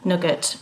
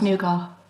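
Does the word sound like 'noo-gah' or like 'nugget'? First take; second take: nugget; noo-gah. First: It is said like 'nugget', hard t. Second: It is said like 'noo-gah', long first vowel. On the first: The speaker calls it wrong. "as I would say, Nugget ... I clearly say it wrong" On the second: The speaker calls it right. "But it's not, it's Nougat"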